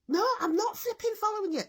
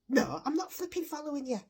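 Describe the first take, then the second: First: It is said much louder. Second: It is said at a normal volume.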